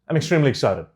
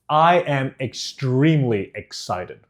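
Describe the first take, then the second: First: The words are mumbled and run together. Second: Each word is clearly and separately enunciated. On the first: The speaker calls it wrong. "what I'm not going to do is say I'm extremely excited. ... Just mix them together" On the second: The speaker calls it right. "Can you hear the difference in the clarity there?"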